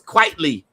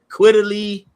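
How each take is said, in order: First: The first syllable sounds like 'quite'. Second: The first syllable does not sound like 'quite'. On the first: The speaker calls it right. "So it's Quitely" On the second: The speaker calls it wrong. "I used to call him"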